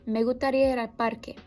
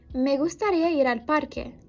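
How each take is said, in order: First: It is said very fast with weakened s sounds. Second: It is said at normal speed with clear s sounds.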